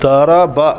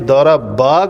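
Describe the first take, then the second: First: The final vowel is short. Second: The final vowel is lengthened. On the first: One person hit. The speaker calls it right. "दौराबा की जगह पे" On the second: Two people hit. The speaker calls it wrong. "ज़बर को इतना लंबा करना है"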